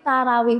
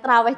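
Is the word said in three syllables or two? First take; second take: three; two. First: The word is said with three full syllables. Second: The word is squeezed into two syllables. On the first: This is the proper form of the word. The speaker calls it right. "Jadi sebenarnya itu tarawih" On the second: This is the local Javanese habit. The speaker calls it wrong. "bukan traweh. Cuma karena lidahnya orang Jawa"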